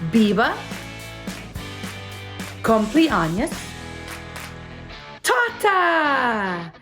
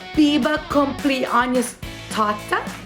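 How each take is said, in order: First: The phrase is said at a slower pace. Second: The phrase is said at a quicker pace.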